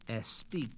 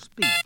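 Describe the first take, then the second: First: An extra e sound comes before the s. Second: The word starts directly with the s sound. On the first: The speaker calls it wrong. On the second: The speaker calls it right.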